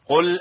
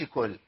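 First: The word begins with a deep q sound. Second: The word begins with a plain k sound. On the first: The speaker calls it right. "يبقى ايه؟ قل اعوذ برب الناس" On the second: The speaker calls it wrong. "ما اقولش كل"

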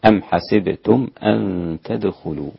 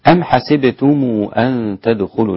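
First: The final m is closed with no vowel. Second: The final m is linked with a short vowel. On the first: "والباقون بإسكان الميم" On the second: "قالون عن نافع من وجه الصلة"

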